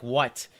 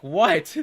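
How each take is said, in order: First: Understated annoyed "what"; mock annoyance. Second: Higher, louder annoyed "what"; mock annoyance thrown back. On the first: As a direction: voice an annoyed look at usual pitch. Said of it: "a really, like, annoyed look". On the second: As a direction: fire the annoyed look back, raised voice. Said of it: "I give her the look back".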